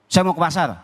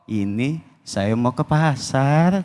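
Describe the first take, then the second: First: It is said in a firm, curt tone. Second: It is said in a soft, flirtatious tone.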